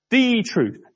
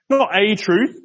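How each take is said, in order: First: "The truth" with "The" hit and falling; stress on the. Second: "Not a truth" with "Not" pushed up and rising; stress on not. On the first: Preacher insisting there is one way: "The" stressed. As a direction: lean hard on "The" in "The truth". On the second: Preacher rejecting many paths: "Not" stressed. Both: Shown as a demonstration.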